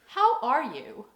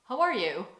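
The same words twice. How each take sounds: First: It is said slowly, as a real question. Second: It is said quickly, as a passing greeting.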